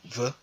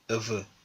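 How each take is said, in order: First: The word is shortened to one syllable. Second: The word is said in full with two syllables. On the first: "devient ve" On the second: "le chiffre deux"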